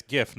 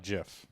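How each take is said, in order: First: "gif" with a hard G as in go. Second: "gif" said like jiff; soft G. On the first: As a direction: say "gif" starting like give. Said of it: "it's gif because of the hard G". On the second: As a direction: say "gif" with a J sound. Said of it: "J I from French". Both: Shown as a demonstration.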